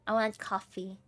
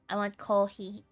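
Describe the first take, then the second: First: Coffee is said with an English accent. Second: Coffee is said with a Japanese accent.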